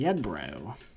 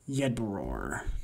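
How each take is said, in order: First: The name ends without an R sound. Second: The name ends with an R sound. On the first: The speaker calls it wrong. "I've been saying Yedbro" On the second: The speaker calls it right. "probably more correctly pronounced Yedbror"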